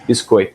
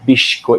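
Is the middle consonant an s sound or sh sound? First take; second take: s; sh. First: It is said in standard Brazilian Portuguese, with s. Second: It is said in a Rio accent, with sh.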